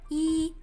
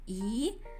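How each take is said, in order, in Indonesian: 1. Ini diucapkan dengan nada pertama. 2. Ini diucapkan dengan nada kedua. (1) "Nada aslinya I" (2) "berubah menjadi I"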